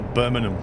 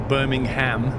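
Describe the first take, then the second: First: It is said with the consonants run together. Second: It is said with an American accent. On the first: "they just completely roll the, the consonants" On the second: "Americans will say Birmingham"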